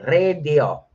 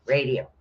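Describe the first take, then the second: First: "Radio" louder, with a short e in the first syllable; "Radio" said as a showy "Rrred-yo"; playful pronunciation. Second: Said in the usual way. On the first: Pretend. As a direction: draw out "Radio" with a flourish on the R. Repeats rune name with flourish.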